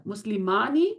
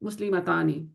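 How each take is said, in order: First: مسلمانی said without the ta sound; test word without ta. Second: مسلمتانی with the ta sound clearly in it; test word with ta. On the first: Teacher quizzing students, the version without ta. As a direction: say مسلمانی plainly, no ta in it. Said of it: "اب میں دونوں sounds بولنے لگی". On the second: Teacher quizzing students, the version with ta. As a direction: say مسلمتانی with the ta audible. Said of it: "مونس sound کون سا ہے". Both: Shown as a demonstration.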